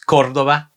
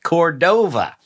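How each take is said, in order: First: The stress is on the first syllable. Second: The stress is on the second syllable. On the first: The speaker calls it right. "in Spanish someone's last name is Cordova" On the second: The speaker calls it wrong.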